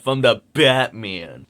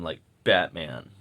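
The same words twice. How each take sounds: First: Said in the usual way. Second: Low, slow odd take on the word Batman; odd low drawn-out Batman. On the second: Real, not acted. Rambling vlogger oddly stretches out Batman, low and slow. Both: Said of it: "I don't know why I said it like that".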